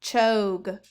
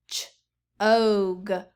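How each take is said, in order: First: Said in the usual way. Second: "Ch-og" split into ch and a long og; segmented sounds. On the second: Shown as a demonstration. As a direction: stretch it apart as Ch-og. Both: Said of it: "let's look at the first one".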